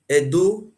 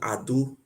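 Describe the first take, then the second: First: The word begins with an 'eh' vowel. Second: The word begins with an 'ah' vowel. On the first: The speaker calls it wrong. "Edo don't have meaning in our language" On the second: The speaker calls it right. "the right pronunciation is called Ado"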